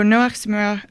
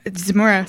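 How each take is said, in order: First: "Zmura" with French-sounding vowels, ending swallowed to "zmuh"; French accent. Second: "Zmura" said in plain English as "zmoo-ruh". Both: Real, not acted. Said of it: "sorry, my French accent came out".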